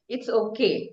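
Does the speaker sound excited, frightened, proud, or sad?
proud. The voice sounds proud and self-assured. The speaker feels pleased with themselves. "You're proud"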